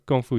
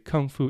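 First: It is said the Mandarin way, with an unaspirated g. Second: It is said the English way, with a breathy k. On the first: This is the original Chinese form. "it comes from kung fu here" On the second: This is the form used in English. "when people say kung fu in English"

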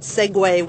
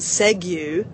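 First: The word ends with a 'way' sound. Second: The word ends with an 'oo' sound. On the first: The speaker calls it right. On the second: The speaker calls it wrong.

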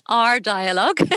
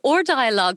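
First: The first word sounds like 'hour', British style. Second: The first word sounds like 'or', Irish style. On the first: "My listeners in the UK will say Our Dialogue" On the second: "I know that's a very Irish pronunciation"

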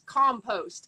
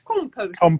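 First: The word is said in an American accent. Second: The word is said in a British accent. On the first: The speaker calls it wrong. "versus us" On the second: The speaker calls it right. "y'all have this beautiful compost"

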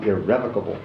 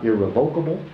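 First: The stress falls on the second syllable. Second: The stress falls on the third syllable. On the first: The speaker calls it right. "but irrevocable" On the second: The speaker calls it wrong. "is not irrevocable"

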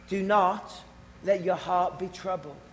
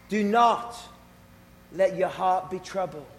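Both takes have the same delivery.

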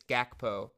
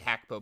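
First: The name begins with a hard G sound. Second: The name begins with an H sound. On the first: This is how most people say the name. "It's Gakpo" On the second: This is the name's actual pronunciation. "It's actually Hakpo, but no one calls him that"

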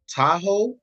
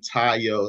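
First: The name is said like the car Tahoe. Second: The name is said as Tayo. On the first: The speaker calls it wrong. "my name is not the car" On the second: The speaker calls it right. "it's clearly Tayo"

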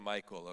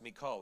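First: The name sounds like the name Michael. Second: The name sounds different from Michael. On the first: The speaker calls it wrong. "I used to always say the name Michael" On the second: The speaker calls it right. "but it's actually pronounced Michal"

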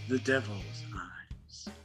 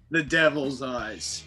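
First: It is said in a more creepy way. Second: It is said in a plain, less creepy way.

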